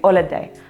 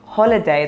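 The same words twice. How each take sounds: First: The word begins without any h sound. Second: The word begins with an audible h sound. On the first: The speaker calls it wrong. "they will say" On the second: The speaker calls it right. "instead of"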